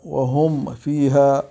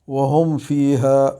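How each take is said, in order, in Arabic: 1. الميم تُنطق بوضوح قبل الفاء. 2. الميم تُنطق بوضوح قبل الفاء.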